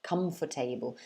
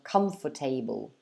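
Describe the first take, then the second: First: The word is said with four syllables. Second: The word is said with four syllables.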